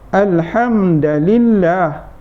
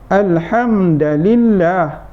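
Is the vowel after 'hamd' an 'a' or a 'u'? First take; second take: a; a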